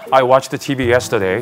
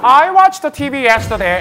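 First: The voice is lower-pitched and more masculine. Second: The voice is high-pitched and feminine.

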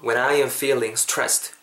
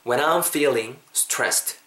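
First: 'I am' is said as two full words. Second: 'I am' is run together as 'I'm'.

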